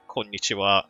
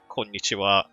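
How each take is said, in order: First: Every syllable of the greeting is pronounced in full. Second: The same.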